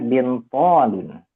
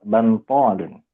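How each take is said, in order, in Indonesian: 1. Vokal pertama terdengar seperti i. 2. Vokal pertama terdengar seperti a. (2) "ada yang disebut bantolun. Bisa dua"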